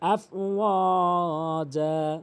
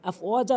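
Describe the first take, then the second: First: The word ends with a long a vowel. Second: The word ends with an n sound.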